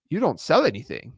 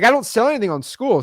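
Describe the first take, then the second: First: Barely-there imitation of Sam Ovens's accent, close to own voice; a faint, failed stab at his accent. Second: Retry of the accent, higher and voiced unlike himself; second, fuller go at his accent, pitched up; Sam Ovens accent. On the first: Quoting the Skool CEO's question with a weak try at his accent. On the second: Retrying the Skool CEO's line with a higher, put-on accent. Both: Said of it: "I can't say his accent right".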